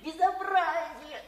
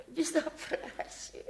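First: Said in the usual way. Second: Slow breathless half-laughing whisper. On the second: Acted. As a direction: gasp it out, winded from the fall. Repeats the word after falling.

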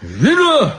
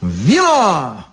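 First: High, short yelp of an order; barked demand. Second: Obedient drawn-out repeat; submissive echo. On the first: Drunk guard demanding wine, high bark. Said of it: "рявкнул стражник". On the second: Elegant devil echoing the guard, submissive. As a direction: echo the order meekly, letting it fall. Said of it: "покорно повторил изящный". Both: A narrator's reading.

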